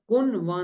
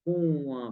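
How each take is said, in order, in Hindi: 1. न का उच्चारण एक पूर्ण व्यंजन के रूप में होता है। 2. न केवल एक नासिक्य स्वर की विशेषता है। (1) "कोई भी शख्स कुन वा नहीं पढ़ता" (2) "कुआँ पढ़ता है"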